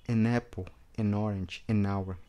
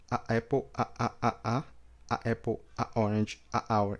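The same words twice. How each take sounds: First: "an" joined smoothly to each word; linked demo. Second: Each "a" cut off before the word; choppy demo. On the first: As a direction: flow it together. ("an" ligado a cada palavra) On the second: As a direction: break after each a. ("a" com corte) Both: Shown as a demonstration. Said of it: "a melhor forma é o corte".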